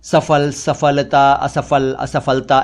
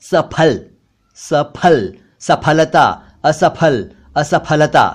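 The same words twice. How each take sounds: First: सफल, सफलता, असफल, असफलता with middle f; mispronounced ph as f. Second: सफल, सफलता, असफल, असफलता with middle p plus breath; spaced words, puffing the ph in सफल to असफलता; aspirated ph. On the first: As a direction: run through सफल to असफलता with f. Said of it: "ऐसे बोलते हैं". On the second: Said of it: "इन शब्दों के सही उच्चारण हैं". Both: Shown as a demonstration.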